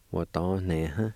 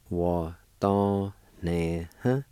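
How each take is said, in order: First: Said in the usual way. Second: "Wa, don, ne, huh" slow, each syllable held; slow syllable sounding-out. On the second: Shown as a demonstration. Teacher repeating handing for learners, slowly syllable by syllable. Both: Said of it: "It's pronounced like this".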